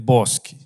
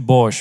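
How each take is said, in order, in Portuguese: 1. O nome termina com som de k mais vogal. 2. O nome termina com som de sh. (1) "É Bosque" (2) "Alguns chamam de Bosch, mas não é a pronúncia correta"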